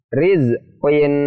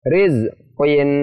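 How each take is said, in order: No difference in how they are said.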